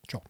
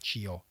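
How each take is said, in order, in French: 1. Ça sonne comme 'tcho', sans voyelle 'ee'. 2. Une voyelle 'ee' est entendue avant le 'o'. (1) "On n'entend pas le i" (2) "pas cio"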